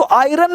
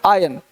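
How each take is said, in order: First: आयरन with the R pronounced, eye-RUN; wrong pronunciation. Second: आयन as EYE-un, lower, no R; correct pronunciation. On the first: Teacher quotes the mistake in iron, R sounded. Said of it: "नहीं बोलना है". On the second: Teacher corrects the word iron, R-less and lower. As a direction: say आयन low with a silent R. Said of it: "आयरन नहीं बोलना है". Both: Shown as a demonstration.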